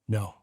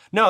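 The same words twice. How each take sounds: First: The word is said with the pitch going down. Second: The word is said in a high pitch.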